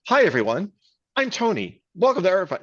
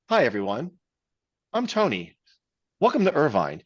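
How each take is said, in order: First: It is said fast, rapid fire. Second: It is said slowly, with pauses.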